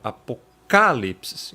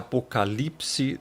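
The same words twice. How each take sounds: First: The stress is on the 'ca' syllable. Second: The stress is on a later syllable. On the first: This is the original Greek pronunciation. "o acento está aqui na letra alfa, né, na segunda alfa" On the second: This is the Portuguese-adapted pronunciation. "a pronúncia Apocalipse aportuguesada"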